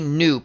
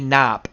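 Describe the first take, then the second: First: The vowel is a long oo sound. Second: The vowel is a short o sound. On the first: "It just flows better" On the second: "believes it's like Cop"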